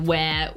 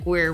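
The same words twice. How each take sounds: First: It is said with a British accent, no R. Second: It is said with an American accent, clear R. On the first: "I go where" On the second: "you're like, where"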